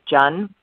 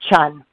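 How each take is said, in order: First: The name begins with a j sound. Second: The name begins with a ch sound. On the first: This is the original pronunciation of the name. "It's actually pronounced like J-U-N, Jun" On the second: This is a compromise that matches the spelling. "So I meet people halfway. Chun"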